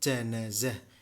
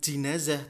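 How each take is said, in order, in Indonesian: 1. Suku kata pertama memiliki vokal 'a'. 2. Suku kata pertama memiliki vokal 'i'. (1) "yaitu bil fathi, dengan fathah" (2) "secara umum dikatakan bukan jinazah"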